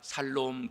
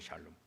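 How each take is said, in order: First: The word begins with a plain s sound. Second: The word begins with a sh sound. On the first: "샬롬 발음이 안 될까 살롬 그러는데 그것도 좋은 것 같아요" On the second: "샬롬 그러잖아요"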